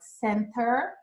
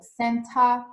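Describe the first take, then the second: First: It is said in an American accent. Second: It is said in a British accent. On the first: "in American English, they say like center" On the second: "more British English"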